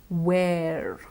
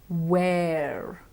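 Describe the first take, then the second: The two takes are said the same way.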